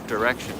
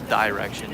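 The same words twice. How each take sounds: First: The first syllable has a weak 'duh' vowel. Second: The first syllable sounds like 'die'. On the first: The speaker calls it right. "It's dir dir dir direction" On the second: The speaker calls it wrong. "It's not direction"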